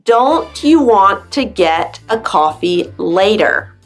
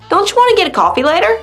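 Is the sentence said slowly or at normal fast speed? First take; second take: slowly; fast. First: It is said slowly, word by word. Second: It is said fast, words run together.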